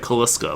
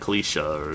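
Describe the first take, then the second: First: The middle of the name has an sk sound. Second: The middle of the name has an sh sound. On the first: The speaker calls it wrong. "it looks like Kaliska, but I know that's not correct" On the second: The speaker calls it right. "I know it was like Kalisha or something"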